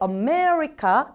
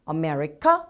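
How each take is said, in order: First: The word is said with strong stress. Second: The word is said with weak stress, ending rising. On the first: The speaker calls it right. "강세 살리면 America잖아요" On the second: The speaker calls it wrong. "말꼬리를 올리듯이 강세를 살리지 않습니다"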